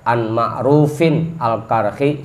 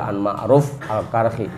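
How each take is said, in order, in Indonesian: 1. Nama itu diucapkan dengan tambahan akhiran i'rab. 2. Nama itu diucapkan polos, tanpa akhiran i'rab. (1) "Mau dibaca an Ma'rufin al-Karhi" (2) "nyebut namanya aja"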